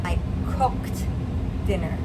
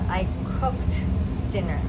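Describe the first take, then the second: No difference in how they are said.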